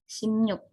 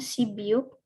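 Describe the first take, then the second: First: The middle is pronounced with an m-ny sound. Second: The middle is pronounced with a b sound. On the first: The speaker calls it right. "maka dibacanya m dan nyu" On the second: The speaker calls it wrong. "di sini bacanya bukan sibiuk"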